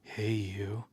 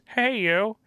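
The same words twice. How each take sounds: First: It is read in the speaker's ordinary voice. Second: It is said in an imitated, put-on voice.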